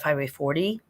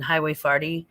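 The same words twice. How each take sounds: First: Forty is said in a standard American accent. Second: Forty is said with an old St. Louis accent. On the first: This is how most other people say it. "instead of" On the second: This is how old-time locals say it. "my mother says things like"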